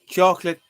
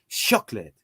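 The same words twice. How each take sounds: First: The word starts with a hard k sound. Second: The word starts with an s sound.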